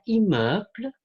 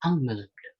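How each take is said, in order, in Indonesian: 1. Vokal pertama itu oral, bukan sengau. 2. Vokal pertama itu sengau.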